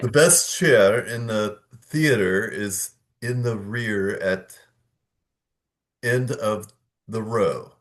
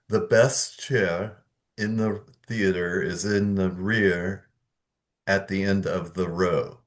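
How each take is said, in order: First: 'Rear' is linked to 'at' with an R. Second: 'Rear' is not linked to 'at'.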